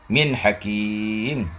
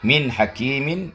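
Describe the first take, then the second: First: The last word ends without any n sound. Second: The last word ends with an audible n sound. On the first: The reciter stops on this word. "ketika diwaqafkan tidak ada bunyi nun" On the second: The reciter continues without stopping. "jarron ketika jar"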